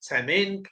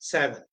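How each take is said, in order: First: The name is said with an 'm' sound in the middle. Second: The name is said with a 'w' sound in the middle. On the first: The speaker calls it wrong. "कई सैमेन भी pronounce करते हैं" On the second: The speaker calls it right. "जो actual pronunciation है, वो है"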